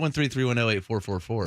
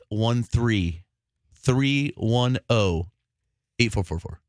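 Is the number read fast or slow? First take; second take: fast; slow. First: The digits are read out quickly. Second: The digits are read out slowly. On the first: The speaker calls it wrong. "why are you saying it so quickly?" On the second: The speaker calls it right. "should I say it slower?"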